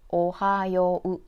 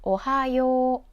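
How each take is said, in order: First: The final yo vowel is cut short. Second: The final yo vowel is held long. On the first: The speaker calls it wrong. "not ohayo" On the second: The speaker calls it right. "extend the yo character"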